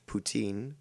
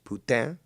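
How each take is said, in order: First: The word has an English-style pronunciation. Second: The word has a French-style pronunciation. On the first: The speaker calls it wrong. "the English derivative poutine" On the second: The speaker calls it right. "That's actually how it's supposed to be pronounced"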